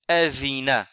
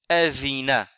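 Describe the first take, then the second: First: The middle consonant is a soft th sound. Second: The same.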